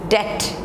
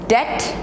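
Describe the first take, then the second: The two takes are said the same way.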